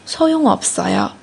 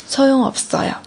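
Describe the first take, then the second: No difference in how they are said.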